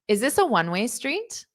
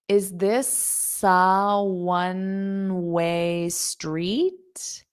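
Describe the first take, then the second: First: The sentence is spoken at a fast pace. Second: The sentence is spoken at a slow pace. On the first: "I'll say it fast" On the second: "Now I'll say it slow"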